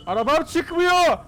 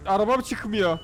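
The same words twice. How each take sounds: First: High, slow, loud wail over the stuck car; panicked shout. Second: Said in the usual way. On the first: Real, not acted. Car won't come out, panicking. (panikle bağırarak, uzatarak)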